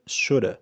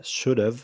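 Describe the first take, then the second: First: "shoulda" as "SHOOD-uh", no v; "shoulda" run into one short word; fast reduced form. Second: "should've" joined as "SHOOD-uv"; "should've" as one linked word; contracted should've. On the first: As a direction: drop the v and end "shoulda" on a schwa. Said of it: "لو عاوزين نسرعها أكتر نقول". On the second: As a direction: keep the v at the end of "should've". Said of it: "should have تبقى should've". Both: Shown as a demonstration.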